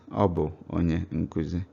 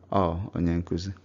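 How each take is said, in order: First: The first word is said in full. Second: The first word is shortened to one vowel. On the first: It sounds formal. "this is the way pastors or those formal people will say it" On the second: It sounds everyday and casual. "everyday people will say"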